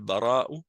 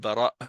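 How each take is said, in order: First: The word ends with a vowel after the catch. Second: The word ends with an abrupt stop in the throat.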